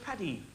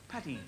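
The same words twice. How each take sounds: First: Soft Irish wife calling Paddy; Irish accent. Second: Softer Irish wife calling again; Irish accent. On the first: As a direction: call him gently in an Irish lilt. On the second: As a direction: call his name once more, softly, in an Irish lilt. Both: Retold or imitated. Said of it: "How about that accent?".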